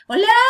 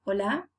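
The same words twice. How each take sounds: First: "Hola" very high and loud, shooting up; weird English-tuned Hola. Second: "Hola" at everyday pitch, small rise; Spanish phone greeting. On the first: Teacher mocking a wrong phone answer, loud high rise. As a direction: answer with an exaggerated rising "Hola". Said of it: "you'll sound weird too". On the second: Teacher answering the phone in Spanish, modest rise. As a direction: answer with an understated, lightly rising "Hola". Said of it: "when you answer a phone call". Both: Shown as a demonstration.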